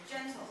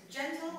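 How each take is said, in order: First: "gentle" punched on GEN; stress on first syllable of "gentle". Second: "gentle" wrongly punched on TLE; stress on second syllable of "gentle". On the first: Teacher asking Hannah to figure out gentle, "gentle" stressed on first syllable. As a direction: hit "gen" in "gentle", let "tle" fall away. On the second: Teacher asking Hannah to figure out gentle, "gentle" stressed on last syllable. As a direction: keep "gen" light and hit "tle" high in "gentle". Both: Shown as a demonstration. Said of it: "whether it's gentle or gentle".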